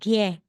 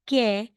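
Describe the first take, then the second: First: The first consonant is a clear G. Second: The first consonant is a clear K. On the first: "hindi rin talagang ge" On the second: "hindi talagang ke"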